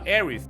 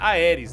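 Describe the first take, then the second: First: The name is said in an English-style way. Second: The name is said in a Portuguese-style way. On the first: The speaker calls it right. "o certo é falar Aerith, que é o nome mais puxado pelo nome dela mesmo em inglês" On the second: The speaker calls it wrong. "eu falava errado, era Aeris"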